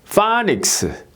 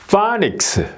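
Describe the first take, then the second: Both takes have the same delivery.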